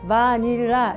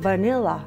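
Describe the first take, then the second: First: Every syllable is said equally strong. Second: Only the middle syllable is strong. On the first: The speaker calls it wrong. "제가 했던 발음은 다 세게 줬던 거예요" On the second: The speaker calls it right. "니에만 주고 나머지는 다 내렸어요"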